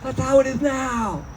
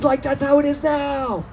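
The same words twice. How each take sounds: First: High stoner shout of realization; high excited stoner cry; stoner exclaiming. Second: High stoner musing; dopey dawning realization; high mock stoner; stoner realizing. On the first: Retold or imitated. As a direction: yell it like a baked revelation. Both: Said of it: "It's like".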